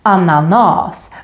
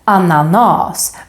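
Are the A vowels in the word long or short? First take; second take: long; long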